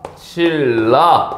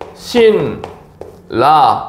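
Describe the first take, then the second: First: The N changes to an L sound. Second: The syllables are said separately with an N sound.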